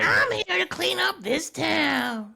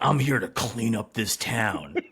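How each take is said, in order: First: It is said in a high-pitched voice. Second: It is said in a lower-pitched voice. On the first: "Not that high pitched" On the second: "is it like that?"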